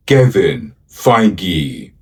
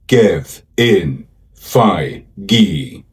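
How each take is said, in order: First: Said in the usual way. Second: "Kevin Feige" slowly, broken into Ke-vin Fei-ge; syllable by syllable. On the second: Shown as a demonstration. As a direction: sound out "Kevin Feige" slowly, a gap after each syllable. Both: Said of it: "Let's learn to pronounce".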